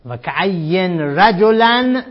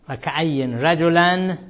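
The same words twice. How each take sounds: First: رجلا stretched very slowly and louder; very slow, loud chant of the example; emphatic reading. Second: Said in the usual way. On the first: Shown as a demonstration. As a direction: drag out رجلا with weight. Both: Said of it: "در این شاهد مثال".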